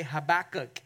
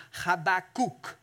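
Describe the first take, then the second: First: Said in the usual way. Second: Habakkuk said slowly as in Hebrew, ha-ba-KOOK; Habakkuk in careful Hebrew, ending in "oo"; Hebrew pronunciation. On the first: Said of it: "we always say Habakkuk in church". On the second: Shown as a demonstration. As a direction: draw out Habakkuk with a long final "kook". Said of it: "You pronounce it in Hebrew".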